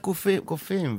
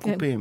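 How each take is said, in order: First: The middle consonant is a soft f sound. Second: The middle consonant is a hard p sound. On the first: The speaker calls it right. "הרבה קופים" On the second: The speaker calls it wrong. "ולא קופים"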